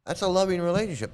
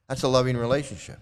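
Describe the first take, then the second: First: Loving lifted high and pressed; insistent, higher repeat; stress on loving. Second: Said in the usual way. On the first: Real, not acted. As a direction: lean hard on loving. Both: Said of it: "repeats for emphasis".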